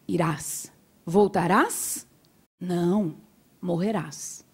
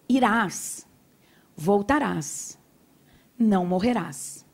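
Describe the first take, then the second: First: The pause comes after 'não', grouping 'voltarás não'. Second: The pause comes before 'não', grouping 'não morrerás'.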